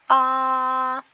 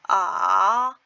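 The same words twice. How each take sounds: First: It is said with Mandarin first tone. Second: It is said with Mandarin third tone.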